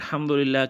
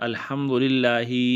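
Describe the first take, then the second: First: The word ends without an added final vowel. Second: The word ends with an added final i. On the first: The speaker calls it right. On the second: The speaker calls it wrong.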